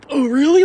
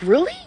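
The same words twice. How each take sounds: First: Louder, higher goofball "really"; goofball reaction. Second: Sincere disbelief. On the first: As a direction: play it like a goofball, loud and mocking. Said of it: "Like he's a goofball". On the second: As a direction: ask it in earnest, unsure you are trusted. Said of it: "you have faith in me to do that". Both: Shown as a demonstration.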